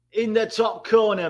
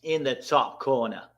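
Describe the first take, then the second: First: Higher, punchier call of the goal; excited call. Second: Said in the usual way. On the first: Real, not acted. Streamer repeating his goal call, excited. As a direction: hype the finish as you repeat it.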